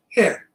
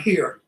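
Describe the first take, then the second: First: "here" as "heah", R dropped; Brooklyn pronunciation. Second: "here" with a clearly sounded R; wrong pronunciation. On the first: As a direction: drop the R off "here", Brooklyn style. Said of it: "not here". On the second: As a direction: say "here" as "heer", R and all. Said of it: "No, no, no, not here". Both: Shown as a demonstration.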